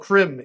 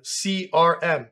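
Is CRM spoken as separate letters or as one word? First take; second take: one word; separate letters. First: It is pronounced as a single word. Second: It is spoken as three separate letters. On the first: This is how the computer voice would misread it. The speaker calls it wrong. "it's going to go CRM" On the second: This is the intended reading. The speaker calls it right. "instead of CRM"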